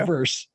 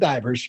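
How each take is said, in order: First: The word ends with a sharp 's' sound. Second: The word ends with a soft 'z' sound. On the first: The speaker calls it right. "but it's" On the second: The speaker calls it wrong. "she pronounced it divers"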